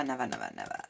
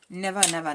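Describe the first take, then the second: First: Much lower, trailing never, never, never. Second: Loud exasperated never, never. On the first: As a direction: drop way down for the last nevers. Exasperated repeated never. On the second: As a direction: belt out the first nevers. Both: Real, not acted.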